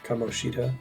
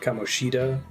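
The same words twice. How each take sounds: First: The stress is on the second syllable. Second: The stress is not on the second syllable. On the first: The speaker calls it right. "if you're going to emphasize anything, it's the second one" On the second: The speaker calls it wrong. "But not"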